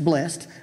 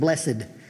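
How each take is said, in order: First: It is said in a plain, ordinary way. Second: It is said in a solemn, preacher-like way. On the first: The speaker calls it right. "it's just blessed" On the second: The speaker calls it wrong. "That's a preacher thing. It sounds holier"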